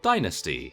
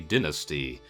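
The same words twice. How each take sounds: First: It is said the American English way. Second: It is said the British English way.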